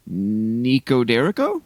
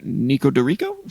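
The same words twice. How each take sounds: First: Nico Derico with "Der" as in "derrick", slow and questioning; first pronunciation attempt. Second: Nico Dorico with "Dor" as in "door", still rising; second pronunciation attempt. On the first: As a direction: try Nico Derico haltingly, rising. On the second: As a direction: correct it to Nico Dorico, asking. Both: Shown as a demonstration. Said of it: "I'm gonna try and pronounce this".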